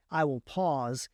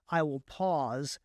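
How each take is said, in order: Both takes have the same delivery.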